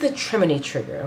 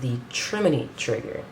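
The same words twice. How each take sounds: First: The name is said firmly, with confidence. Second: The name is said tentatively, without confidence. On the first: The speaker commits to the pronunciation. "I'm gonna say it again with confidence" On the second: The speaker is not certain of the pronunciation. "I think I'm saying that right. I could be wrong"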